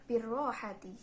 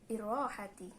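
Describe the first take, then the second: Both takes have the same delivery.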